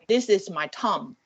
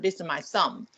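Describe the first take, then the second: First: Thumb starts without a th sound. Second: Thumb starts with a clear th sound. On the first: The speaker calls it wrong. "you cannot say the T H sound, like I say" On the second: The speaker calls it right. "instead of"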